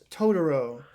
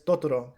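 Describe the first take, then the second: First: The name is said with an English accent. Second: The name is said with a Spanish accent. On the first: "the English dub of the film it's Totoro. You know, like it's very uh, anglicized" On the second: "they pronounce it with a Spanish accent"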